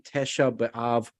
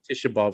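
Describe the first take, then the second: First: The first vowel sounds like 'eh'. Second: The first vowel sounds like 'ee'. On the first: This is the full form of the name. "when you say Tesha B'av" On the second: This is the form heard when the name is said fast. "fast, it sounds like Tisha B'av"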